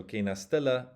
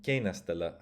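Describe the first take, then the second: First: Kena stela with STE punched higher; accent on the back. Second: Kena stela with KE stressed; accent on the front. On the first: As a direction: hit stela, not kena. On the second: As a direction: hit kena, let stela drop away. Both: Shown as a demonstration. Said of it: "have completely different m".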